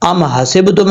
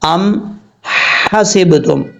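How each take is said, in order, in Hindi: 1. h सादी, हल्की साँस वाली आवाज़ है। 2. h एक कसी हुई आवाज़ है जो गले के बीच से निकलती है। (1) "अम हसिब तुम नहीं पढ़ना" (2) "ये हा बरीक है, जो गले का दरमियान है वहां से ये हा अदा होती है"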